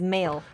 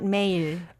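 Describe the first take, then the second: First: It is said like the English word. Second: It is said with Korean pronunciation. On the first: The speaker calls it wrong. "it's easy to pronounce it as male" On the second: The speaker calls it right. "not male"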